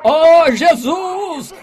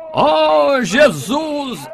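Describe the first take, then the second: First: Much higher, louder, slow stretched cry; drawn-out shout. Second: Higher, louder call of Jesus' name; loud cry. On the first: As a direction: stretch the call out as loud as he can. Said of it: "Ele gritou". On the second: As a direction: call out over the crowd. Blind man crying out to Jesus. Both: Retold or imitated.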